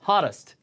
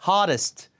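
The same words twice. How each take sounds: First: The middle t is a soft r-like flap. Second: The middle t is a hard t sound. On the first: The speaker calls it right. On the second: The speaker calls it wrong.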